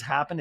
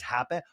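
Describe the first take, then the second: First: Said in the usual way. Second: "happen." with the final d dropped; Lisa's pronunciation. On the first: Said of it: "the way Lisa says". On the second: Retold or imitated. Recapper mocking how Lisa says "happened" as "happen.". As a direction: say "happen." clipped short, no d at the end. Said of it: "the way Lisa says "happened" is".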